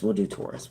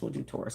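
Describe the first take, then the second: First: Said in the usual way. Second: Whispered to herself. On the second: Real, not acted. Deciding the reading order, whispering to herself. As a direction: mutter the decision under her breath.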